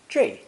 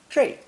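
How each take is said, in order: First: The syllable ends in an 'ei' glide. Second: The same.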